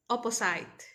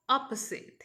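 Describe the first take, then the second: First: "opposite" ending like the word "sight"; common mispronunciation. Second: "opposite" with a short i ending, "OP-uh-zit"; correct pronunciation. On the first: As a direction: say "opposite" with a long i, "oppo-SITE". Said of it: "they tend to pronounce it". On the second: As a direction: end "opposite" like "sit", not "sight". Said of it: "it's opposite". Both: Shown as a demonstration.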